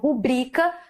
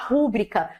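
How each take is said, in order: First: The stress is on the second syllable. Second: The stress is on the first syllable. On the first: The speaker calls it right. "em vez de nós falarmos" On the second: The speaker calls it wrong. "a gente tem a tendência a falar"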